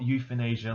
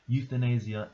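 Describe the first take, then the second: First: The word is said in a mocking imitated pronunciation. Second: The word is said in its ordinary standard pronunciation. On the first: The speaker calls it wrong. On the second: The speaker calls it right.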